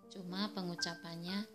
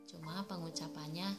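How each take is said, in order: Both takes have the same delivery.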